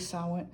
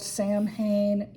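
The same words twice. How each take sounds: First: The word is pronounced unlike its spelling. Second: The word is pronounced letter by letter as spelled. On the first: The speaker calls it right. "It's actually Samhain" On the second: The speaker calls it wrong. "It's spelled Samhain. You will hear people pronounce it that way"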